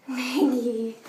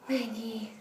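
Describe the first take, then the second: First: Said in the usual way. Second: Hushed whisper of a name. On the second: Real, not acted. Calling softly for the dog.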